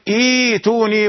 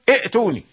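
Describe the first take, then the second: First: The second hamza becomes a long ee vowel. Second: The second hamza is pronounced as a glottal stop. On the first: The speaker calls it right. "فلابد أن تبدل الهمزة الثانية للتسهيل، تقول إيتوني" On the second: The speaker calls it wrong. "ولا تقل ائتوني"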